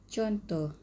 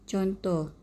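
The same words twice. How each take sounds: The two takes are said the same way.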